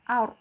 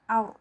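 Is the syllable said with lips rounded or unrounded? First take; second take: rounded; rounded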